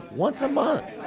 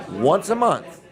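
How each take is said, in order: First: High-pitched emphatic repeat. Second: Said in the usual way. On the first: Real, not acted. Host pitching free show spots to sponsors, high-pitched emphatic repeat.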